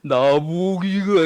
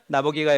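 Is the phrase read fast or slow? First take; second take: slow; fast. First: The phrase is read in an exaggeratedly slow, drawn-out way. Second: The phrase is read quickly and hurriedly. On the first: "또 오해해서 천천히 읽으라고 나보기가 이게 아니라" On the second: "우리 친구들 시 읽을 때 빠르게 읽습니까?"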